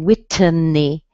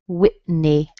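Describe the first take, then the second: First: The T is released, adding an extra sound. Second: The T is held with no release before N. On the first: The speaker calls it wrong. "You don't want to say Whitney. If you do that, you add an extra" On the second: The speaker calls it right. "you're going to what we call hold it"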